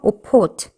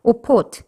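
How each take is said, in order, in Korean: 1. 가운데 자음은 무성음 p예요. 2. 가운데 자음은 무성음 p예요.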